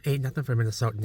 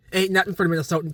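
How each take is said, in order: First: Said in the usual way. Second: Higher, quicker, fired-up boast; animated boast. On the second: Real, not acted. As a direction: boast about the cold, pitched up and hurried. Repeats the boast more emphatically.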